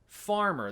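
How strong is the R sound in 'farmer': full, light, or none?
full. The R is pronounced fully and strongly. "they wouldn't say farmer"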